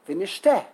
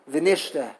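First: The stress is on the last syllable. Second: The stress is on the second syllable. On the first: The speaker calls it right. "Like the Israelis" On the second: The speaker calls it wrong. "They say the second v'nishte. That's wrong"

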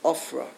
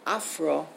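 First: The first vowel is an 'o' sound. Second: The first vowel is an 'a' sound. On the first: "elsewhere it's Ofra" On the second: "why here is it Afra"

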